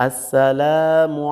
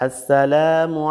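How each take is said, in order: No difference in how they are said.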